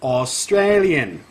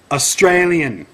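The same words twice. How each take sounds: First: "Australian" stretched out at half speed; drawn-out "Australian", falling at the end; slow teaching. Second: "Australian" said high and loud, falling at the end; indignant, projected "Australian"; emphatic correction. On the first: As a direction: spell out "Australian" slowly for a dim pupil. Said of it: "Say it with me". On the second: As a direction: correct them firmly on "Australian". Corrects being called British. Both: Shown as a demonstration.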